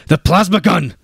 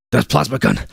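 First: Much higher, louder repeated yell. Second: Urgent yell. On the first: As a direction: push it harder the second time. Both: A narrator's reading. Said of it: "he yelled".

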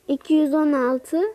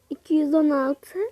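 No difference in how they are said.

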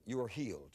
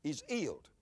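First: Said in the usual way. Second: "healed" said as "eeled", no H; dropped H. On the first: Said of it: "that's the way he would say". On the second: Retold or imitated. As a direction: drop the H on HEALED, English dialect style. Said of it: "pronounce H's".

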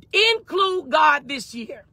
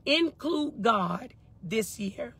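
First: Slow, higher INCLUDE GOD, each word weighted; emphatic slow declaration. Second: "Include God this year" very slow and soft, spaced out; slow, hushed emphasis. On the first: Preacher gives viewers today's word, emphatic and slow. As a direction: stretch out "Include God this year", starting high. Main message, stated emphatically. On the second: Preacher repeats the word one more time, slow and soft. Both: Real, not acted.

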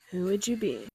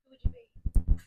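First: Said in the usual way. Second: A much lower, menacing "Who would you be?"; deep Armand line. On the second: Retold or imitated. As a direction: drop the voice low and loom over the question. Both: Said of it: "we have the "Who are you, Louis?" teaser".

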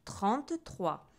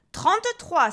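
First: Slow, spelled-out dictation; patient, drawn-out doctor's prompt; insistent. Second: Much higher, loud burst; loud, irritated order; exasperated doctor. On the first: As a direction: say it slowly for the patient to repeat. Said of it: "insista le docteur". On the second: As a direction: bark it out, losing patience. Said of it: "s'énerva le docteur". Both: A narrator's reading.

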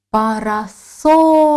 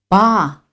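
First: "Парасолька" drawn out slowly, third syllable СОЛЬ stretched and punched; stress on СОЛЬ. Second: "Па-ра-соль-ка" split into four separate syllables. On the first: Teacher finding the stress in "Парасолька", stretching "соль" slowly. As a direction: lean long and hard on "соль" in "Парасолька". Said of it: "Визначимо наголос". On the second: Teacher divides the word "Па-ра-соль-ка" into syllables, pausing between them. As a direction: say "Па-ра-соль-ка" with a clear pause after each syllable. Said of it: "Вимовимо його для поділу на склади". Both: Shown as a demonstration.

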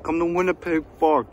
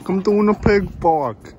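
First: Loud, higher taunting call; taunting yell. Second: Much higher, much louder yell; loud taunting shout. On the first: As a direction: shout it out to lure them. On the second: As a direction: bellow the taunt across the field. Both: Acted.

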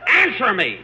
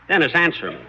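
First: Higher-pitched, insistent outburst; exasperated demand. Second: Said in the usual way. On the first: Acted. Boss presses the silent young singer for an answer, exasperated.

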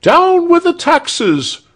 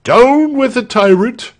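First: Very high, slow shrieked slogan; crowd shriek. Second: High-pitched rebel rallying cry; rallying shout. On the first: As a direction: shriek it out like a mob. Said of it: "shrieked the crowd". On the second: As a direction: shout it to rouse a crowd. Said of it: "shouted Walter first". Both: A narrator's reading.

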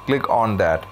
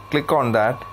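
Both takes have the same delivery.

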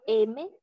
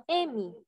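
First: M said as "EH-meh", ending in e on a rising tune; Spanish letter name. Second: M said as "EH-mee", falling at the end; Portuguese letter name. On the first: Teacher recalling the form students know, M as rising "EH-meh". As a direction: say M as Spanish "eme", lifting the end. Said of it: "forma que ustedes conhecem". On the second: Teacher giving students the Portuguese name, M as "EH-mee". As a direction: say M as "êmi", ending in an ee sound. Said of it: "El portugués". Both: Shown as a demonstration.

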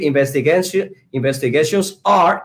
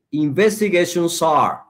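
First: Investigations ARE said as two separate words; unlinked words. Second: "investigations are" run together as "investigation-sar"; linking words. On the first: Teacher showing the unlinked way, "investigations", then "are" separately. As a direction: keep "are" apart from "investigations". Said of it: "en vez de decir". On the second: Teacher modelling the linking trick, "investigations are" joined as one. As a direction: glide the final S of "investigations" into "are". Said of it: "Y decimos sar". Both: Shown as a demonstration.

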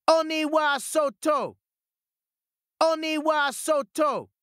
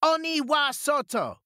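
First: High, slow and louder battle cry; louder shout. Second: Much higher battle cry; shout. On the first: Peach Boy shouting again at ignoring ogres, louder. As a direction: shout even harder this time. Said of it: "shouted again, even louder". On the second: Peach Boy shouting to drive ogres out. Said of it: "the Peach Boy shouted". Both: A narrator's reading.

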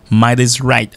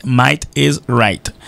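First: Said in the usual way. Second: Might is right, each word spaced out slowly; slow and deliberate. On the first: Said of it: "teacher models the English proverb". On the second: Shown as a demonstration. Teacher on the radio slowing down so students hear "Might is right", slow. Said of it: "teacher models the proverb slowly".

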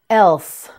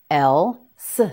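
First: Said in the usual way. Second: "Else" split into el, pause, suh; sound by sound. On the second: Shown as a demonstration. Teacher modelling "Else" for learners, sound by sound. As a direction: say the final s of "Else" on its own after a gap.

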